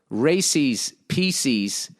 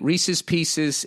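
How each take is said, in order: First: The first word sounds like 'Racy's', two syllables. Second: The first word sounds like 'Reese's', one vowel. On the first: "as Racy's Pieces" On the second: "the candy Reese's Pieces"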